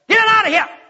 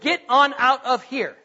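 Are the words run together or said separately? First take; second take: run together; separately. First: The words are run together into one word. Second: The words are said separately and clearly. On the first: "It's just one word" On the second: "That was get on out of here"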